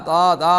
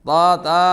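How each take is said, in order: Both takes have the same delivery.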